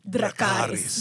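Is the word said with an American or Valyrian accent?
Valyrian. It is said with a Valyrian accent.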